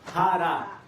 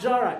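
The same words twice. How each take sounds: First: The name is pronounced with Spanish sounds. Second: The name is pronounced with English sounds. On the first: The speaker calls it right. "Pronounce it like a real brown person would pronounce it" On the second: The speaker calls it wrong. "it's not Jara"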